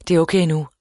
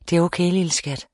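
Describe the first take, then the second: First: Brisk, slightly firmer reassurance; hurried, understated reassurance; quick reassurance. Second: Mildly soothing, even voice; calm a frightened child gently; understated grandfatherly reassurance; reassuring. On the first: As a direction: say it promptly to close the matter. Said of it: "sagde Jack hurtigt". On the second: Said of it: "sagde han beroligende". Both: A narrator's reading.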